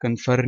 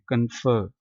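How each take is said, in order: First: कन्फर said with the final r sounded; wrong pronunciation shown. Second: कन्फर said with the r silent, ending on "fuh"; correct pronunciation. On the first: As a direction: show the mistake of voicing the r in कन्फर. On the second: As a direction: model कन्फर cleanly with no r. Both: Shown as a demonstration. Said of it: "ये जो आर है ये silent है".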